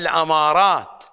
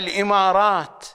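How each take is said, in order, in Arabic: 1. الحركة الأولى هي 'a' (الفتحة). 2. الحركة الأولى هي 'i' (الكسرة). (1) "إنما هي الأمارات" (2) "البقية كذلك يلفظونها الإمارات. هذا اللفظ ليس صحيحا"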